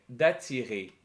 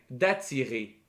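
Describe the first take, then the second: Both takes have the same delivery.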